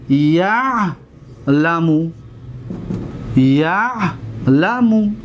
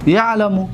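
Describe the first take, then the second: First: یعلم stretched very slowly, each syllable ya-la-mu held long; slow drawn-out demo. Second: Said in the usual way. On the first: Shown as a demonstration. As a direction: spell out یعلم slowly for the students to copy. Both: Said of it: "دقت بتید".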